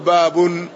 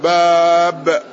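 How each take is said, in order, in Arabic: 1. تنتهي الكلمة بصوت نون زائد. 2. تنتهي الكلمة بدون صوت نون، من غير تنوين. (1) "منونا مفردا فيقول باب" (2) "الإسكان باب بدون تنوين"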